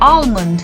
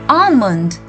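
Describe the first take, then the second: First: The L sound is clearly pronounced. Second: The L sound is left out. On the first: The speaker calls it wrong. "Many a times we pronounce this as almond" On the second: The speaker calls it right. "we have to mute the L and we say almond"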